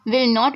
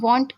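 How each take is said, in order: First: It is said as two separate full words. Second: It is said as one contracted syllable. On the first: "विल नॉट भी आप कह सकते हैं" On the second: "वॉन्ट कहेंगे तो impressive भी लगता है"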